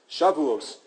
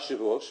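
First: It is pronounced as the word meaning weeks. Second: It is pronounced as the word meaning oaths. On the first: The word names the Festival of Weeks. The speaker calls it right. "Shavuos is the Festival of Weeks" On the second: The word means oaths. The speaker calls it wrong. "Not Shavuos, Shavuos are oaths"

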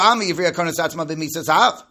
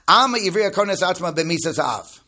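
First: It is said quickly, rushed through. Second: It is said more slowly and carefully.

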